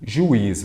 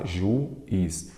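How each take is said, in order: First: Said in the usual way. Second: "juiz" broken as ju, pause, iz; split into syllables. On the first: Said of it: "vamos lá". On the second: Shown as a demonstration. Teacher working through a word for students, "juiz" syllable by syllable. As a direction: say "juiz" in two separate syllables, ju - iz. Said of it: "vamos separar em sílabas".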